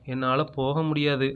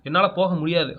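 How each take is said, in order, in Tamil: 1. இந்த வாக்கியம் மெதுவாகவும் மென்மையாகவும் சொல்லப்படுகிறது. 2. இந்த வாக்கியம் உரக்கவும் அழுத்தமாகவும் சொல்லப்படுகிறது. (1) "மெதுவா சொல்லுங்களேன்" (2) "சத்தமா பேசணும்"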